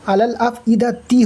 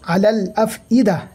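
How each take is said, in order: First: The phrase ends with an added 'ti' syllable. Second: The phrase stops on 'ida' without a final 'ti'. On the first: The reciter joins it to the next words. "হয়ে যাবে মিলিয়ে পড়লে" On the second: The reciter stops at this word. "যদি দাঁড়াতে চান তো"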